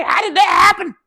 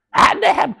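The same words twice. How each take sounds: First: High-pitched hammed-up shout of disbelief; mock outraged shout. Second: High-pitched repeated shout of disbelief; mock outraged shout. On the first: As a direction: yell it up high like a stunned boss. Mock outraged boss retelling. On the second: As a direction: hit it again, high and stunned. Repeat of the same outburst.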